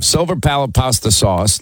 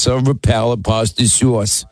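First: Said in the usual way. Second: Put-on silver palate pasta sauce in a light New York accent; imitating how Linda says silver palate pasta sauce in New York; mock New York accent. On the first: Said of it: "It is a long name". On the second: Host mocks how Linda says it, New York accent. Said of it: "Linda says".

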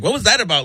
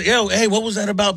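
First: Lightly put-on girly complaint; mildly girlish, slightly higher mimicry. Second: Lightly put-on manly challenge; mildly manly "yo, hey" delivery. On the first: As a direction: say it with a hint of a girly voice. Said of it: "repeat it in a girly voice". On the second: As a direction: say it with a hint of macho confrontation. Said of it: "in my manly voice". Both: Shown as a demonstration.

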